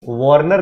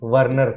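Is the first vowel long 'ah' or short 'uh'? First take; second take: long 'ah'; short 'uh'. First: The first vowel is a long 'ah'. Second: The first vowel is a short 'uh'. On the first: The speaker calls it wrong. "वार्नर नहीं" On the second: The speaker calls it right. "वर्नर theory"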